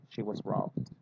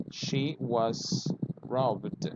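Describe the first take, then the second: First: Said in the usual way. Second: She was robbed, each word slowly, robbed ending in a d sound; slow model sentence. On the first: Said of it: "you say". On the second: Shown as a demonstration. Teacher slowly models She was robbed for students. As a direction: spell it out word by word. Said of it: "you can say, for example".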